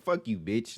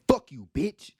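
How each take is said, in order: First: It is said in a light, joking tone. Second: It is said in a hostile, aggressive tone. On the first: It is friendly teasing aimed at a friend. "like jokingly saying" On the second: It is real hostility aimed at an enemy. "like you're saying with some aggression"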